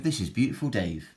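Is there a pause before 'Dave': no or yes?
no. The words run on with no pause before Dave. Beautiful Dave is the person's name. The speaker calls it wrong. "his name's Beautiful Dave"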